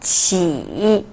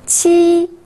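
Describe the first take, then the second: First: The pitch dips low, then rises. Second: The pitch stays high and level.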